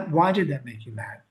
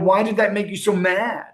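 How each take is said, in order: First: The question sounds gentle and sympathetic. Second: The question sounds accusing and confrontational. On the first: The speaker sincerely wants to understand. The speaker calls it right. "that's a whole different tone in the question" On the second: The listener is blamed for getting angry. The speaker calls it wrong. "that's a very accusatory tone of voice"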